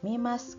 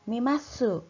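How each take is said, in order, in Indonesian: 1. Kata itu berakhir dengan s tanpa vokal. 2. Kata itu berakhir dengan vokal u yang jelas. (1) "tidak usah diucapkan masuk, tetapi mas" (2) "biasanya kalian sering sekali e, membacanya dengan mimasu"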